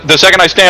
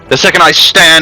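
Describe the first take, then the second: First: It is said in a different character voice. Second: It is said in a pirate-like character voice. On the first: The voice fits the character. The speaker calls it right. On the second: The voice does not fit the character. The speaker calls it wrong.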